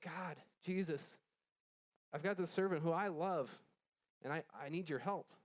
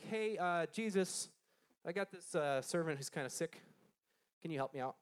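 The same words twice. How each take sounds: First: Mild pleading. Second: Offhand, hesitant ask with easy pauses; casual request. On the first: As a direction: beg for help with understated emotion. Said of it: "He was pleading". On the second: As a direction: ask for a favor like it's no big deal. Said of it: "he wasn't just like". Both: Acted.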